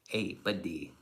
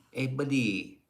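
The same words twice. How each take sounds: First: Said in the usual way. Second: Put-on buddy voice. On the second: Streamer greets his buddy in chat, in a goofy put-on voice. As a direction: ham up the hello a bit.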